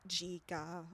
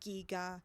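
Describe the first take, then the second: First: The two G sounds are pronounced differently. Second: Both G sounds are pronounced the same way. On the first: The speaker calls it wrong. "not giga" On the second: The speaker calls it right. "It would have to be the same G sound, like giga"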